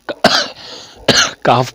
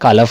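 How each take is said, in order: First: The L sound is left silent in the word. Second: The L sound is pronounced in the word. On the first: The speaker calls it right. "काफ पढ़ना है" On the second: The speaker calls it wrong. "एल को नहीं पढ़ना है, कालफ नहीं पढ़ना"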